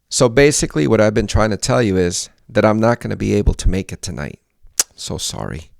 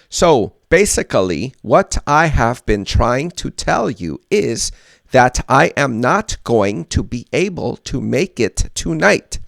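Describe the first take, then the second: First: It sounds fluent, with words reduced and linked. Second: It sounds robotic, every word separate and full.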